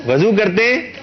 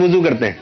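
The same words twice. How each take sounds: First: وضو said wazu with a short a, rising in mock question; wrong pronunciation, teasing. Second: وضو said wuzu with a rounded u; وضو as wuzu, falling; correct pronunciation. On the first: Host teasing the contestant, using the wrong form وضو as wazu. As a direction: raise the pitch and say وضو as wazu. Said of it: "وضو مت کیا کیے". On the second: Host to contestant, saying وضو as wuzu. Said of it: "یہ تو وضو". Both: Shown as a demonstration.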